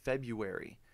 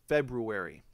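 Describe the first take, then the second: First: The first R is dropped: Feb-yoo-ary. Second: The first R is pronounced: Feb-roo-ary. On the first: This is how people usually say it. "you've always said February" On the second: This is how the listener should start saying it. "the way that I'm saying it here"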